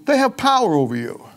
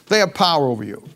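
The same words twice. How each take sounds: First: Pitched high and pressed hard on "they have power over you"; the preacher drives home "they have power over you" with a high, pressing lift; emphatic first take. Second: Said in the usual way. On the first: Shown as a demonstration. Preacher warning the congregation, high emphatic stress.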